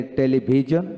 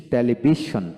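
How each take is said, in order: First: "টেলিভিশন" with a voiced j, te-li-bi-jon; "টেলিভিশন" as te-li-bi-JON, presented as American; claimed American pronunciation. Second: "টেলিভিশন" with sh, te-li-bi-shon; "টেলিভিশন" as te-li-bi-SHON, presented as British; claimed British pronunciation. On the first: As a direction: say "টেলিভিশন" ending in jon, tune rising. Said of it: "আমেরিকানে". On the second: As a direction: say "টেলিভিশন" ending in shon, tune falling. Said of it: "British টেলিভিশন". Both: Shown as a demonstration.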